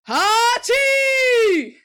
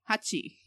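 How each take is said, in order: First: The word is yelled out very loudly. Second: The word is said at a normal, calm volume. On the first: "And yell it really loud" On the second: "instead of saying like Hachi"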